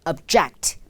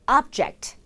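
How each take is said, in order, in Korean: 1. 강세는 두 번째 음절에 있습니다. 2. 강세는 첫 번째 음절에 있습니다. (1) "반대하다 라는 동사" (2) "물건이라는 명사"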